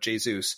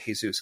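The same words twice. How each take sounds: First: The name is not pronounced the Spanish way. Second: The name is pronounced the Spanish way. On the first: The speaker calls it right. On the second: The speaker calls it wrong.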